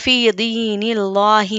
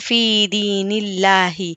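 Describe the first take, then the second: First: The l in Allah sounds heavy and full. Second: The l in Allah sounds light and thin. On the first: The speaker calls it wrong. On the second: The speaker calls it right.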